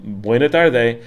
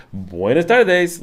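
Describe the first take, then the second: First: "buena tarde" with the final s sounds dropped; "buena tarde", swallow the ends of the words; clipped buena tarde. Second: "Buenas tardes" slow and higher, every s sounded; "Buenas tardes" with both plural s sounds; formal buenas tardes. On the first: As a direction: say "buena tarde" the casual everyday way. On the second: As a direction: say "Buenas tardes" the careful textbook way, slowly. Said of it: "like, that is, well". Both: Shown as a demonstration.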